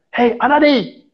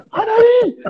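First: Higher call up the tree to get his attention; imitating a coworker calling up a tree. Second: A higher, more insistent call of "Anadi"; coworker's second, more pressing call up the tree; urgent call. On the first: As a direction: shout "Anadi" up to the climber, falling off the name. Coworker calls up to him. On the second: Retold or imitated. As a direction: call his name again, now urgent, falling off the end. Coworker calls again, more urgently.

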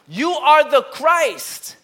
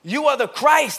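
First: Slow, loud, higher proclamation; Peter's awed declaration; declaring. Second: Louder, firm proclamation; Peter's confident declaration; declaring. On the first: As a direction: proclaim it with awe. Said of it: "his inflection in his voice was like that". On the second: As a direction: announce it with conviction. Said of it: "but I would imagine". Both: Retold or imitated.

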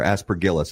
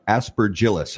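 First: Aspergillus with a hard g, as in gift. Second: Aspergillus with a soft g, as in gem. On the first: Host offers the other reading of the mold's name, aspergillus with hard g. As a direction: say aspergillus as "as-per-GHIL-us". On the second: Host tries one reading of the mold's name, aspergillus with soft g. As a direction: say aspergillus as "as-per-JIL-us". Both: Shown as a demonstration. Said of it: "I don't know how you pronounce it".

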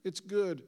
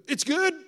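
First: Understated, timid report of good news; sheepish. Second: Loud, high-pitched rising question; astonished delight. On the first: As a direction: offer it modestly, without any push. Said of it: "somebody will sheepishly go". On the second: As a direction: leap up in pitch with eager disbelief. Pastor reacts to good news. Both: Retold or imitated.

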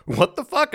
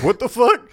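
First: Bewildered at herself. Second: Loud, high-pitched shocked question; startled disbelief. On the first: Singer startled by her own chanting, bewildered. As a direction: squeak it in confused mock shock. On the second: Players reacting to the sudden demon chant, startled. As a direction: burst out in mock shock. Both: Retold or imitated.

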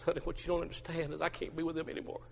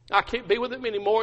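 First: Hushed, hurried confession; acted dejection. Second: Higher, anguished repeat; acted distress. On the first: Peter explaining himself to his wife, quietly dejected. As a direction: murmur it softly, defeated. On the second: Peter admitting it to his wife, openly distressed. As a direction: raise the pitch in despair. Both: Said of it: "Peter just begins to weep".

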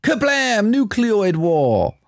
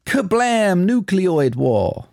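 First: High, slow dramatic announcement; film line in a voice. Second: High, slow dramatic announcement; dramatic film line repeated. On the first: Host reads the film line as a slow dramatic trailer. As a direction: boom it out like a movie trailer. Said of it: "What's that film?". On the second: Host repeats the line for co-host, slow and dramatic. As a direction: say it big and slow. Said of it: "It's all in the pronunciation". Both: Acted.

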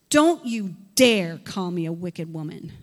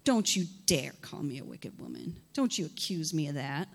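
First: Loud, defiant retort. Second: Low, soft sass; sassy. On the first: Hannah answers Eli, loud and defiant. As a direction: push back hard. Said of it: "look at her response". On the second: Hannah talks back to her master with low sass. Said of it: "with such sass as I am right now". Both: Acted.

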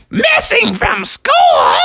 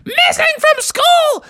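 First: Very high, drawn-out incredulous question; shocked shriek. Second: Very high, slow falling cry; alarmed exclamation. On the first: Froggy's mom hears the school's call, shocked shriek. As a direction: squawk it back in horror. Mother gets alarming call. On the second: Dance class repeats the news, alarmed cry. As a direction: spread the alarm to everyone. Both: Acted.

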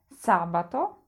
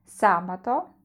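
First: Sabato said SA-ba-to, first syllable stressed; stress third from end. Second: Sabato said SA-ba-to, stress on the first syllable; teacher model of Sabato for repeating; Italian pronunciation. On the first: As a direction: show where the stress falls in sabato. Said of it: "akcent pojawia się na trzeciej sylabie od końca". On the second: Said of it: "Staraj się powtarzać po mnie". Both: Shown as a demonstration.

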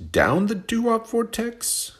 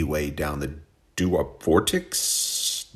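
First: Much higher, slow squeaky question; mock falsetto echo. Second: Said in the usual way. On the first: Host teasing his own phrase in a slow squeaky falsetto. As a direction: squeak it back at yourself in disbelief.

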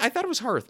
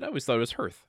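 First: Hearth said as "harth"; HEARTH like "heart". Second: Hearth said as "hurth"; HEARTH like "earth". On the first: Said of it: "My parents called it a hearth". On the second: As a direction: say "hearth" to rhyme with birth. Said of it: "is that how you pronounce it". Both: Shown as a demonstration.

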